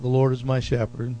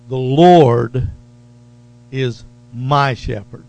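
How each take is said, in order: First: The sentence is read plainly, without special emphasis. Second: The sentence is said with strong emphasis. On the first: The speaker calls it wrong. "We can say it the way we kind of read it" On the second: The speaker calls it right. "Notice the emphasis"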